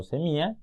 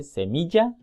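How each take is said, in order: First: Semilla as "semia", ll dropped. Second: Semilla with a clear ll, "semiya"; correct ll. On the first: Teacher showing the wrong semilla. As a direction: drop the ll in semilla. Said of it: "no semilla". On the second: Teacher giving the correct semilla. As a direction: sound the ll in semilla. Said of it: "se dice semilla". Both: Shown as a demonstration.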